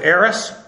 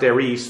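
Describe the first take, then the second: First: The second syllable has a short 'ih' vowel. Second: The second syllable has a long 'ee' vowel. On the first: "most English speakers, when they see it, they never think that" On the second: "That word actually is pronounced eris"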